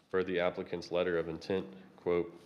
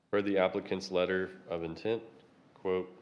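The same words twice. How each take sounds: The two takes are said the same way.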